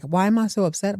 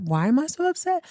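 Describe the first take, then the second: First: Said in the usual way. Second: The same line again, much higher and disbelieving; incredulous repeat. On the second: Retold or imitated. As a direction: throw the question back up high in mock outrage. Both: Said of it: "And he's like".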